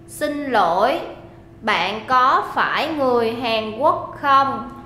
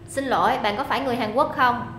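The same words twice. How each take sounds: First: It is said slowly. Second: It is said fast.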